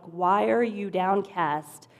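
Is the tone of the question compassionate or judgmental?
judgmental. The question sounds harsh and accusing. The asker is condemning the listener. The speaker calls it wrong. "that sounded way more judgmental in my head"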